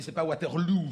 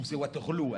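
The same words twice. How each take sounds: First: "Waterloo" ending in "lou", French style. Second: "Waterloo" ending in a closed "lo", Belgian style. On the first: Correcting the operator, "Waterloo" said with a final ou. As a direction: say "Waterloo" as "Watèrlou". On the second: Insisting to the operator, "Waterloo" ending in o. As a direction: say "Waterloo" as "Watèrlo". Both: Retold or imitated.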